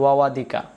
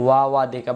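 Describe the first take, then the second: No difference in how they are said.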